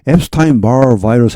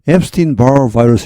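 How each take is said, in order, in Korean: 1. 첫 번째 단어는 'stine' 소리로 끝나요. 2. 첫 번째 단어는 'steen' 소리로 끝나요. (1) "앱스타인 바 바이러스 하는 사람은 별로 없을 것 같습니다" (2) "미국 사람들은 대부분 팔십 퍼센트 이상은 앱스틴 바 바이러스 이렇게 합니다"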